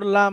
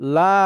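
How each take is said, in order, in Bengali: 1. স্বরটি হ্রস্ব রাখা হয়। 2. স্বরটি টেনে দীর্ঘ করে বলা হয়। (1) "শুধু লাম জবর লা" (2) "এটাতে টান আছে"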